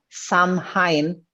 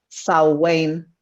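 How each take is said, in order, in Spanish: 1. Se lee como sugiere la ortografía española. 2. Se dice con su pronunciación nativa. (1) "lo que leemos en español como" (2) "pero que se pronuncia"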